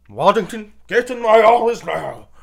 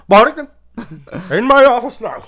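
First: High, loud mock boss bellow; angry boss. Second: Laughing mock boss shout, high and loud; angry boss. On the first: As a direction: bark the order like a furious boss. Boss summoning employee again. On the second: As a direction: yell for him like a cranky boss. Boss summoning employee, laughing.

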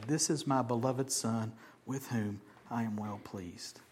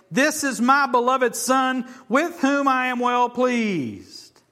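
First: Soft reading. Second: Much higher and louder, slow and drawn out; booming voice of God. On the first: Shown as a demonstration. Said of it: "breathe it in". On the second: Acted. Preacher voicing God's proclamation from heaven, slow booming shout. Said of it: "a voice from heaven said".

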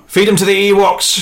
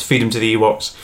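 First: High, loud villain order; shouted. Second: Said in the usual way. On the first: Acted. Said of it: "shouts Palpatine". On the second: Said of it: "Palpatine shouts".

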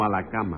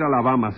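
First: "a la cama" with a clear k sound; corrected word. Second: "a la cama" said as "Alabama", with a b; Alabama pun. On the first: Judge correcting Alabama, "a la cama" said with a k. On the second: Judge objects to the teacher's pun, "a la cama" said as "Alabama". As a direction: turn "a la cama" into "a la bama". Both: Acted.

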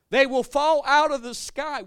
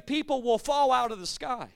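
First: Slow, louder repeat of the line; rising into a shout, slow; loud slow preaching. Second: Said in the usual way. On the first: Real, not acted. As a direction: hammer it home slowly.

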